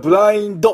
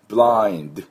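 First: A vowel is added after the final d. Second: The word stops cleanly on the final d. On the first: The speaker calls it wrong. "これブラインドって言ってはダメですね。" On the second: The speaker calls it right. "ドドドで止めてください。"

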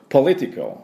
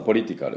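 First: The stress falls on the first syllable. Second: The syllables are said evenly, Japanese style. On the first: "ポリのところにアクセントがありまして" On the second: "ちょっとカタカナ英語でいきますと"

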